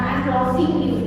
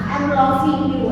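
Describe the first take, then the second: First: The -ing ending of loving is strongly stressed. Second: The -ing ending of loving is said lightly. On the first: The speaker calls it wrong. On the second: The speaker calls it right.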